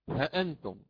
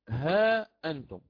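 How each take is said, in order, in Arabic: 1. الحركة بعد الهاء قصيرة، من غير مد. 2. الحركة بعد الهاء طويلة وممدودة. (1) "يقرأ بحذف الألف مع تحقيق الهمزة" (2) "بإثبات الألف مع تحقيق الهمزة"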